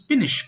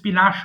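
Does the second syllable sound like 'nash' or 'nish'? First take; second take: nish; nash. First: The second syllable is said as 'nish'. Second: The second syllable is said as 'nash'. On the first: The speaker calls it right. "এটা কিন্তু উচ্চারণ হবে স্পিনিশ" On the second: The speaker calls it wrong. "মনে হচ্ছে স্পিনাশ হবে"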